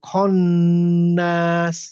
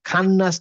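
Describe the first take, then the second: First: The first vowel sounds heavy and dark. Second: The first vowel sounds light and open. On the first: The speaker calls it right. "এই খ হচ্ছে heavy letter" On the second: The speaker calls it wrong. "খান্নাস না হয়ে"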